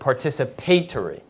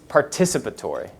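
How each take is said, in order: First: It is said with a British pronunciation. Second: It is said with an American pronunciation.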